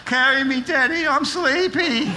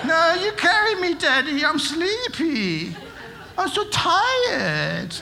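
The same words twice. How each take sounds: First: Mock whiny child begging to be carried; a teen faking sleepiness, hammed-up; imitating sleepy kid. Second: Much higher, slow, drawn-out whining for Daddy; exaggerated whiny child. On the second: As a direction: overplay the sleepy kid begging. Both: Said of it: "my kids used to always pretend to be asleep".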